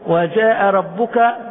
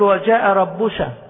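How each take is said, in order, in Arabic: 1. الكلمة تنتهي بصوت ك. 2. الكلمة تنتهي بصوت ش.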